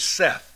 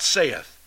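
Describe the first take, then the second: First: The word is one syllable, rhyming with 'death'. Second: The word has two syllables, like 'say-ith'. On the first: The speaker calls it right. "the correct pronunciation is Seth" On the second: The speaker calls it wrong. "not saith"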